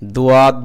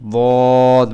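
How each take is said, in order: First: It is said thin, like a plain d. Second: It is said full-mouthed, with a heavy sound. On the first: The speaker calls it wrong. "দুয়াদ বলা যাবে না, দর মতো" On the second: The speaker calls it right. "মুখ ভর্তি করে"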